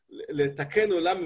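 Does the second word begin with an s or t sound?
t. The second word begins with a t sound. It means to set the world right.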